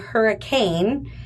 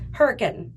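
First: It sounds like the everyday word hurricane. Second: It is said the way locals say it. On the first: The speaker is a newcomer to the town. The speaker calls it wrong. "it's spelled Hurricane, but as soon as you say Hurricane" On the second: The speaker is a local resident. The speaker calls it right. "they will say"

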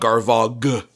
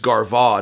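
First: The final letters are pronounced. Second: The final letters are silent. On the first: The speaker calls it wrong. "not Garvagh" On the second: The speaker calls it right. "I think it's just Garvagh"

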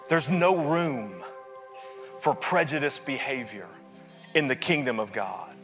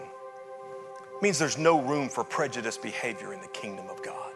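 First: It is said with more force. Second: It is said with less force.

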